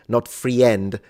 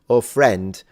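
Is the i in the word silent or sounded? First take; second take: sounded; silent. First: The i is sounded as its own vowel. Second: The i is silent. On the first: The speaker calls it wrong. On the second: The speaker calls it right. "you pronounce"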